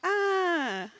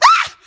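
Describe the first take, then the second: First: It is a quiet, weak sound. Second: It is a loud, full scream.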